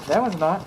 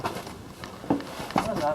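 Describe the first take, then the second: First: Said in the usual way. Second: Slow breathy whisper to himself. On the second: Real, not acted. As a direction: whisper it slowly, half to himself. Repeats his verdict in a whisper.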